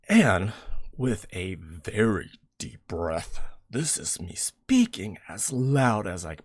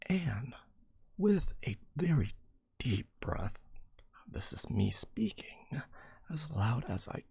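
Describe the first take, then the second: First: It is spoken very loudly, just short of shouting. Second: It is spoken at a normal, moderate volume. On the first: The speaker calls it right. "this is me speaking as loud as I possibly can without shouting" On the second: The speaker calls it wrong. "Oh, I'm supposed to be speaking really loud now"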